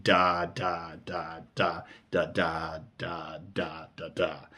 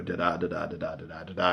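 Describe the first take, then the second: First: Slow "da da da da", each one separately weighted; stressed syllables. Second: Quick "da da da da" in a regular running beat; even metre. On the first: Teacher showing the line's spondees, slow stressed "da, da, da". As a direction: land heavily on each "da", drawn out and spaced. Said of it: "a lot of these words are stress syllables". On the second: Teacher showing what the metre isn't, quick even "da da da". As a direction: rattle off "da da da" as a light, regular rhythm. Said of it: "It's not an even". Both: Shown as a demonstration.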